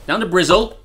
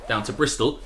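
First: Louder, playful local "Brizzle" with a buzzing z; Bristol as "Brizzle". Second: Said in the usual way. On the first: Pretend. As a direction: say "Brizzle" loudly, z in place of st. Repeats Bristol in local form.

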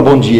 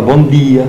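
First: Said in the usual way. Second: "bom dia" with a hard, unsoftened D; Ibitinga accent. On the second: Shown as a demonstration. Man from Ibitinga showing how locals talk, Ibitinga accent. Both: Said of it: "ele fala com o Tzinho mudo".

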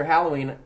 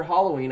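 First: "Halloween" as HAL-oh-ween; usual pronunciation. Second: "Halloween" as HAH-loh-ween; mocking pronunciation. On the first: Shown as a demonstration. Moving on from the dispute, "Halloween" with cat A. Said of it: "I mean, after Halloween". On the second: Teasing co-host's accent, "Halloween" with mock AH. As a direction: overcorrect "Halloween" to an ah. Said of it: "That's what you sound like".

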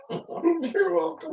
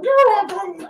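First: Mock high echo. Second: A higher, sing-song teasing echo; mock high echo. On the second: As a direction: throw his words back pitched up. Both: Repeating Tim in a mock voice.

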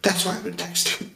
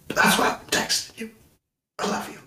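First: Said in the usual way. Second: Whisper. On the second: Real, not acted. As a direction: hush it like a secret. Repeat whispered tenderly.

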